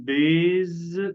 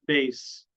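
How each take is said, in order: First: The word ends with a buzzing Z sound. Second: The word ends with a hissing S sound. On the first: The speaker calls it wrong. "طبعا غلط نقول بيز" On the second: The speaker calls it right. "لكن هي بالاس"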